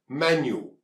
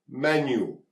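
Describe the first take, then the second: No difference in how they are said.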